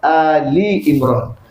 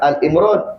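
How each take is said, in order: First: The first part is two syllables, 'Ali'. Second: The first part is one syllable, 'Al'. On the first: The speaker calls it right. "kita kena sebut betul-betul" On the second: The speaker calls it wrong. "bukan Al Imran"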